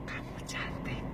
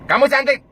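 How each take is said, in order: First: Soft whisper "Kamu cantik"; whispered compliment. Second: Much higher "Kamu cantik" with a stressed "cantik"; loud high compliment. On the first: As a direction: breathe the words close. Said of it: "Mana yang akan lebih kuat". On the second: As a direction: call it out up high. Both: Shown as a demonstration.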